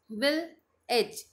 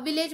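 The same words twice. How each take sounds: First: विल एज as two slow, separated beats; split into syllables. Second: Said in the usual way. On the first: Shown as a demonstration. Teacher showing two chin drops, विल एज split apart. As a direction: leave a long gap between विल and एज. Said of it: "मतलब दो बार drop हुई चिन". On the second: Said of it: "अब village बोलो".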